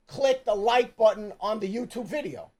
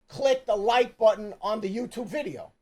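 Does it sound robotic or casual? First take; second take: robotic; robotic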